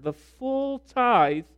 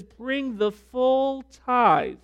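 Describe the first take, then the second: First: High and slow, stressing full tithe; slow proclamation. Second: High, slow and drawn out, leaning on full; commanding scripture. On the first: Preacher repeating God's command to his congregation. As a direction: drag each word out for weight. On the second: Preacher voicing God's command to bring the full tithe. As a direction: proclaim it slowly from above. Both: Acted.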